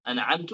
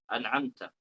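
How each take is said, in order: First: The word ends with an 'u' vowel. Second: The word ends with an 'a' vowel. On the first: The speaker claims to have given the favour. The speaker calls it wrong. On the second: God is the one who gave the favour. The speaker calls it right.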